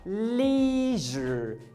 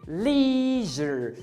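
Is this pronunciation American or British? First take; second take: American; American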